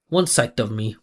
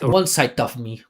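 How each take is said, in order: First: The d is clearly voiced, with a resonant tone. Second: The d sounds voiceless, like 'sight', and muffled. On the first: The speaker calls it right. "mine's so much more musical" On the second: The speaker calls it wrong. "It sounds like he's saying the letter S S I G H T sight"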